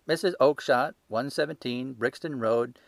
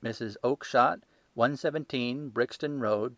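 First: Triumphant salesman. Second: Said in the usual way. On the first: Acted. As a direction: read it like proof you've won.

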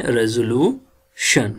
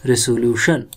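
First: "रेजोल्यूशन" with a voiced z sound in the middle; phonetic pronunciation. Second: "रेसोल्यूशन" with an s sound in the middle; everyday pronunciation. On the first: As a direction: say "रेजोल्यूशन" with ज as z, not स. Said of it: "दो तरीके से ज बोला है". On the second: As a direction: say "रेसोल्यूशन" with स, not ज. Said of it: "हम पढ़ते हैं इधर". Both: Shown as a demonstration.

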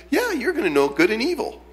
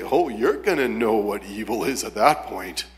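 First: High, coaxing mock-friendly tempter; nice friendly voice. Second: Mock warning, pitched lower; unfriendly warning. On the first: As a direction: make it sound desirable, pitched up and friendly. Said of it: "Say it in a nice, friendly voice". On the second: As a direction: imitate an off-putting warning, without the friendly coaxing. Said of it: "he didn't say it that way".

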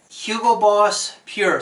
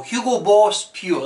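First: Said in the usual way. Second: Lightly put-on Boston accent. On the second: Shown as a demonstration. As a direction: try a rough, amateur Boston accent. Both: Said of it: "that's my Boston accent".

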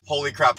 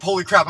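First: Said in the usual way. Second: Shouted holy crap. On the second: Acted. Second take, shouted.

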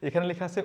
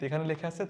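No difference in how they are said.

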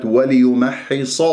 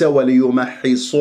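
First: وليمحص with open, unrounded final صا; unrounded lips. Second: Slow وليمحص, final صا rounded toward صو; wrong lip rounding. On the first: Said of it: "كما قلت في كلمة". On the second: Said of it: "وليس". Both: Shown as a demonstration.

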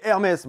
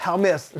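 First: Said in the usual way. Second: "Hermès" distorted as a joke knock-off name; mock brand pronunciation. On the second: Vlogger joking about a knock-off brand, mock pronunciation of "Hermès". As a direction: say "Hermès" with a comically altered, put-on pronunciation. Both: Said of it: "c'est plus un truc du genre".

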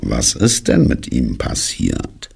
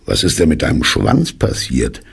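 First: Slow, low echo of the question; ponderous, dismal donkey asking back; gloomy donkey. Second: Lightly surprised question; understated puzzled bear; mild surprise. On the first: Acted. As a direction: drag the question out glumly. Gloomy donkey echoes Pooh's question. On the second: A narrator's reading. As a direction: ask it briskly, a touch taken aback. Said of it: "sagte er überrascht".

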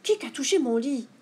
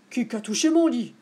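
First: Lightly voiced middle bear, raised pitch; a hint of a medium-sized bear, mildly indignant; middle bear's cry. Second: Lightly voiced big bear, louder; a hint of Papa Bear complaining; big bear's cry. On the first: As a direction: echo the complaint as the middle bear. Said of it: "s'écria à son tour Médiours". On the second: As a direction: exclaim it as the big bear, mildly indignant. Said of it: "s'écria Grand Ours". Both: A narrator's reading.

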